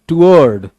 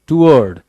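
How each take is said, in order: Both takes have the same delivery.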